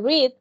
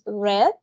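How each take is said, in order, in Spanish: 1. No suena como el color rojo. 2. Suena como el color rojo. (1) "El pasado de read" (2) "se pronuncia diferente como el color"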